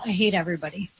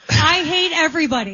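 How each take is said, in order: First: It is said in a quiet voice. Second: It is said in a louder voice.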